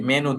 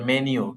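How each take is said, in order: First: The ending sounds like 'noo', without a y. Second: The ending sounds like 'nyoo', with a y. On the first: The speaker calls it wrong. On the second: The speaker calls it right.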